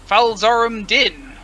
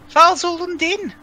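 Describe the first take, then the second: First: The name is said without a put-on accent. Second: The name is said in a put-on accent. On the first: The speaker calls it wrong. "I shudder at the pronunciation, assuming it's terribly wrong" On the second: The speaker calls it right. "you gotta gotta put on the correct accent"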